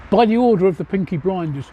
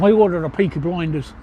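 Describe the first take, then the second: First: Said in the usual way. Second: A light Birmingham accent, the Black Country twang. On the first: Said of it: "you'd have to do it in a Birmingham accent". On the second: Shown as a demonstration. Streamer showing chat the line in a light Birmingham accent. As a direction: say it like a Brummie from Peaky Blinders. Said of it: "do it in a Birmingham accent, which is like this".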